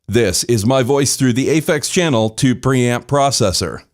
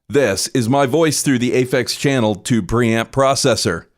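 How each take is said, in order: The two takes are said the same way.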